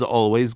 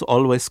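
First: It ends with a z sound. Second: It ends with an s sound. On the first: "we have it quite frequently" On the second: "which they pronounce routinely as an S"

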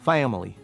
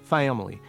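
Both takes have the same delivery.

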